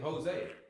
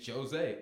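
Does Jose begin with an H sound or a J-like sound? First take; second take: H sound; J sound. First: The name begins with a breathy H sound. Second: The name begins with a voiced J-like sound. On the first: This is not how it is said in Brazil. The speaker calls it wrong. "in Brazil they don't, they don't say Jose" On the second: This is how it is said in Brazil. The speaker calls it right. "They say Jose"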